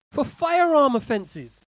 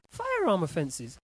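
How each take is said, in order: First: High, loud, drawn out on "firearm"; incredulous outburst. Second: Said in the usual way. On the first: Real, not acted. Host shocked at gun criminals let off, loud and incredulous. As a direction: blurt it out slowly in disbelief. Outraged at cautions for guns.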